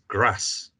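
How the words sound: It is said with a northern English accent.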